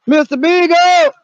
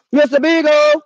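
First: Slow, loud, higher call; calling out the dog's name. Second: Louder, higher call; calling out the dog's name. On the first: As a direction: drag the name out across the woods. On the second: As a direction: shout it toward the trees. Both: Pretend. Calling the lost dog.

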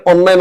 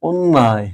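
First: অন্যায় starting on an open অ; wrong pronunciation. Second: অন্যায় with closed o, as ওন্নায়; correct pronunciation. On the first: Teacher showing what to avoid, অন্যায় with open vowel. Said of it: "এটাকে অন্যায় না বলে". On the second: Teacher giving correct form, অন্যায় with closed o. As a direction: start অন্যায় on a rounded ও. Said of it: "বলতে হবে". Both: Shown as a demonstration.

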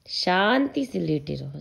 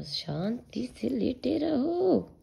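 First: Slow, gentle coaxing; soothing. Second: Whispered soothing. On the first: (बच्चे को धीरे से शांत करते हुए) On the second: (फुसफुसाकर बच्चे को सुलाते हुए) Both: Real, not acted. Soothing toddler.

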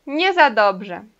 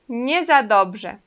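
First: "Nie za dobrze" slowly, in unison with the learner; slow repeat together. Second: "Nie za dobrze" said slowly, each word clear, stress on "za"; slow model phrase. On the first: Teacher repeats "Nie za dobrze" together with students, slow. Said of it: "E agora juntos". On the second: Teacher models "Nie za dobrze" slowly for students to repeat. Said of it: "vamos repetir então esse jeito de falar". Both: Shown as a demonstration.

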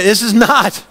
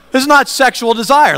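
First: "not" leaned on, falling; stress on not. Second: "not" higher and stronger, falling; stress on not, stronger. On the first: Preacher correcting the congregation, stress on "not". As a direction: weigh the word "not". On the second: Preacher insisting to the congregation, firm stress on "not". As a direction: hit "not" harder the second time. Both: Shown as a demonstration.

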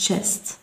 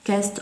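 First: "chest" starting with a CH sound; correct pronunciation. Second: "chest" said as "kest"; wrong pronunciation. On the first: Teacher shows pupils what we say, pronounced with CH. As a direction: begin "chest" on CH, as in "cheese". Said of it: "نقول chest". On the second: Teacher shows what we don't say, mispronounced with K. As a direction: start "chest" with a hard K. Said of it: "لا نقول". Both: Shown as a demonstration.

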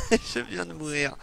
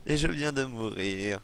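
First: Laughing shout. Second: Said in the usual way. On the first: Real, not acted. Laughs after dying, then repeats calmly.

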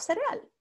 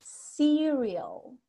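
First: Cereal said the Spanish way, seh-reh-AHL; Spanish pronunciation. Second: Cereal said the English way, SEE-ree-ol; English pronunciation. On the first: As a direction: stress the last syllable of cereal, with Spanish vowels. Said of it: "no decimos cereal". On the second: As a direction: draw out Cereal with a long stressed first syllable. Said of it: "Así es la pronunciación". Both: Shown as a demonstration.

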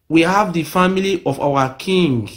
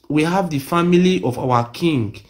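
The two takes are said the same way.

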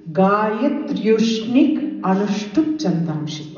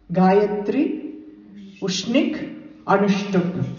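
First: "Gayatryushnik" slowly run together as one word; combined by sandhi. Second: "Gayatri", "Ushnik", "Anushtup", each on its own; words separated. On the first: Teacher combines all the three, "Gayatryushnik" joined and drawn out. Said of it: "When you combine all the three". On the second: Teacher lists the three chandas, each word separated. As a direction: pause after "Gayatri" and "Ushnik". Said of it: "So the three chandas". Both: Shown as a demonstration.

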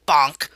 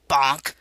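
First: Shouted sound effect of a stick blow; loud bonk. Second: Shouted stick blow; loud bonk. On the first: Harriet clubs the snake, shouting each hit. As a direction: bellow it like a blow landing. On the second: Harriet strikes the snake again, shouting the blow. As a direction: yell the hit as it lands. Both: Acted.

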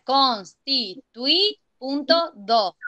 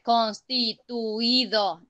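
First: Slow CONSTITUI punto do, with TUI as one syllable: cons, ti, tui; correct syllable division. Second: CONSTITUIDO syllable by syllable, with U and I apart: cons-ti-tu-i-do; split into five syllables. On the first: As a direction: dictate constitui in syllables, keep UI together, then "punto do". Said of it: "no, se divide". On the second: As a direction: slowly break constituido into cons, ti, tu, i, do. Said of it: "no se divide". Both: Shown as a demonstration.

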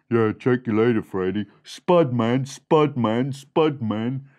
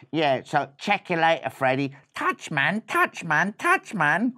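First: Low street-slang mouse farewell; deep-voiced brother. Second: Lightly voiced street-slang mouse; casual swaggering sign-off; cool brother. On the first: Other mouse brother bidding Freddy goodbye, deep-voiced. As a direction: echo the cool sign-off down low. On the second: Mouse brother saying goodbye to Freddy, cool.

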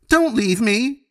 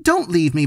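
First: Much higher, panicked wail; terrified child clinging and wailing; desperate crying plea. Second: High, tearful plea; scared little brother begging not to be left; pleading cry. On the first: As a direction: cry it out as the fear peaks. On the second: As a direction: beg him not to go, close to tears. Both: A narrator's reading.

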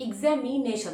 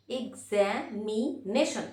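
First: Said in the usual way. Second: examination slowly as এক, জ্যা, মি, nation; syllable by syllable. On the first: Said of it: "আমি যদি বলি". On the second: Shown as a demonstration. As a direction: count out the beats of examination with pauses. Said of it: "যতবার এসে লাগবে". (Examination থেমে থেমে, ভাগ করে)

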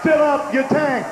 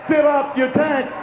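No difference in how they are said.

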